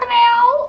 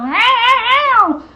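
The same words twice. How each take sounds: First: The meow sounds sweet and pretty. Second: The meow sounds aggressive and upset.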